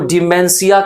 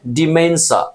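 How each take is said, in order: First: The word ends in a 'see-a' sound. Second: The word ends in a short 'sha' sound. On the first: The speaker calls it wrong. "डिमेंसिया कह दोगे तो वो थोड़ा सा difference हो जाएगा" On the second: The speaker calls it right. "मैंने pronunciation दे रखा है डिमेंशा"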